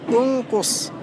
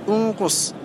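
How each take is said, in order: The two takes are said the same way.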